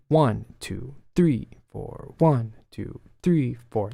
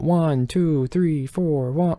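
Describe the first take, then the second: First: Counting with "one" and "three" leaned on, "two" and "four" lighter; accented count on "one" and "three"; stress ones and threes. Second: Even, mechanical counting with no accents; flat robotic counting, no beat stronger. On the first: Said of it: "a stress on the ones and the threes". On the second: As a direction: count "one, two, three, four" like a robot, every beat the same. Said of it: "like a robot". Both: Shown as a demonstration.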